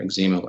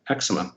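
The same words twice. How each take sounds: First: It is said the Canadian way. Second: It is said in a non-Canadian way.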